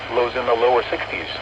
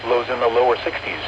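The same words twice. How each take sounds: The two takes are said the same way.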